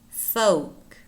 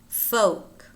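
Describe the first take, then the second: The two takes are said the same way.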